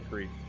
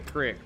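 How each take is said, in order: First: The vowel is long, like in 'seek'. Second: The vowel is short, like in 'sick'. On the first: This is how the speaker says it. "but I say creek" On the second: This is how many other people say it. "A lot of folks say crick"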